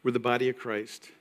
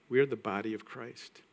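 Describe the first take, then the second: First: Said in the usual way. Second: "are" lifted with a rise, each word spelled out; stress on ARE. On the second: Shown as a demonstration. Pastor drilling the congregation, stressing "are". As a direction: lean into "are" to affirm it. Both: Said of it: "Say that".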